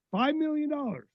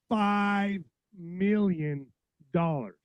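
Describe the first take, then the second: First: Incredulous repeat. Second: Said in the usual way. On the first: Real, not acted. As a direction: pitch jumps high in disbelief. Repeats figure in disbelief.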